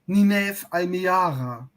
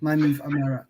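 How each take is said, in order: First: The name is pronounced the German way. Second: The name is pronounced the English way. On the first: The speaker calls it wrong. "the German pronunciation of names is killing me" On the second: The speaker calls it right. "instead of"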